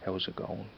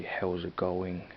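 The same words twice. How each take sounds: First: "going" squeezed to "gone", no final G; dropped G in "going". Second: Slow "going" with the final -ing fully sounded. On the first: Showing their own Dublin way, "going" without the G. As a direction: leave the G off the end of "going". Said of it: "I leave out the G at the end". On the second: Showing what they don't usually say, "going" with its full ending. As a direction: put the G on the end of "going". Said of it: "putting the G on the end". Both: Shown as a demonstration.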